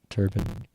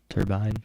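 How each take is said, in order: First: The last syllable sounds like 'bin'. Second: The last syllable sounds like 'bine'.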